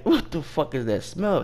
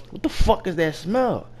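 First: Higher-pitched mock irritation; retold annoyance. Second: High-pitched mock outrage; retold anger. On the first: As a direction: ask it as an annoyed customer, retold. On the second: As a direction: demand it, imitating a man getting madder. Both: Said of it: "He getting mad".

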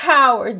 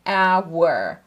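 First: "Hour" with a sounded H, the wrong way; "Hour" said with an H, as the wrong take. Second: "Hour" with no H, like "our"; silent h. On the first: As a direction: show the mistake with an H. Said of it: "Hour değil". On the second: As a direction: drop the H in "Hour". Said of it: "hour diye telaffuz ediyorum". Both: Shown as a demonstration.

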